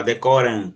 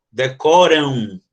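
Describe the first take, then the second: First: Said in the usual way. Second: "Decoram" drawn out slowly, final -am ending in a u-like sound; decoram slowed. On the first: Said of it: "Ele não nasalisa o A". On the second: Shown as a demonstration. Teacher slowly demonstrating the final sound. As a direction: stretch "Decoram" so the ending glides to u. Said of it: "ele cria um som de U".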